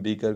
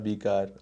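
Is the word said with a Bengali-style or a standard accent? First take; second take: standard; Bengali. First: It is said with a standard accent. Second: It is said with a Bengali-style accent.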